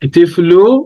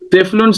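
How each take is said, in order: First: The word ends on a vowel without n. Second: The word ends with an added n sound. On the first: The speaker calls it wrong. "உங்களை இதை எப்படி வாசிக்கிறீங்க" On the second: The speaker calls it right. "திஃப்லுன் சகீர்"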